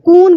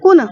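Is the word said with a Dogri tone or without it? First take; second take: without tone; with tone. First: The word lacks the native Dogri tone. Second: The word carries the native Dogri tone. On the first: The speaker calls it wrong. "वो कुछ और ही बोल देगा" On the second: The speaker calls it right. "हम बोलते हैं कून"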